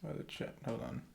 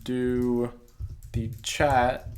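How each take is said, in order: First: Oh, the chat, under the breath; whispered realization to yourself; hushed oh as it dawns; breathy whisper. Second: The chat, called out loud; bright call to viewers; louder. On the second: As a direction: announce the chat feature with a push. Pointing out chat on phone. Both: Real, not acted.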